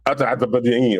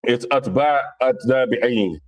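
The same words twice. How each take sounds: First: "Atbabi'in" garbled in one stumbling run; imitated mispronunciation. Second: "Atba, Atbabi'in" in separated, careful parts; correcting pronunciation. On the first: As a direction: mimic someone muddling "Atbabi'in". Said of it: "or whatever you said". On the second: Shown as a demonstration. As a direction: spell out "Atba, Atbabi'in" piece by piece. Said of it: "you correcting me".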